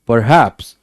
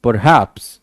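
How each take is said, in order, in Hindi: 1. ज़ोर दूसरे अक्षर पर है। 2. ज़ोर दूसरे अक्षर पर है।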